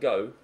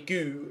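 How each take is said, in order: First: The vowel is a standard 'oh' sound. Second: The vowel is a long 'oo' sound. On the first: It is the standard pronunciation. "rather than go" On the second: It is the speaker's local farmer accent. "I say goo rather than go"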